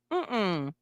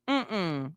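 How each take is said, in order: Both takes have the same delivery.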